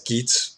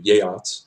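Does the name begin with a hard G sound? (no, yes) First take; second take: yes; no. First: The name begins with a hard G sound. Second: The name begins with a softer, non-G sound. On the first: The speaker calls it wrong. "It's tempting to pronounce the Geats, their name as Geats, but I've learned that this is not the correct pronunciation" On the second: The speaker calls it right. "The Geats are the Jöts"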